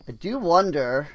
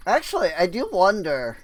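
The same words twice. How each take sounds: First: Said in the usual way. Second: Voice crack. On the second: Real, not acted. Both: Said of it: "Voice crack".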